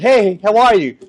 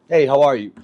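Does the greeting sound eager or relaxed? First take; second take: eager; relaxed. First: It sounds eager and overexcited. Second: It sounds calm and relaxed.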